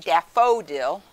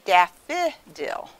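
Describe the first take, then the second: First: The middle vowel is a full long O. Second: The middle vowel is a short I. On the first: "that's an open syllable. We don't say daffodil" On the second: "They make the I sound there"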